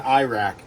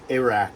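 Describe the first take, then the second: First: Iraq said as eye-rack, long I; wrong pronunciation. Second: Iraq. said as ih-rack, short i; Iraq. with a short ih sound; corrected pronunciation. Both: Shown as a demonstration. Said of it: "Not in Iraq, Iraq".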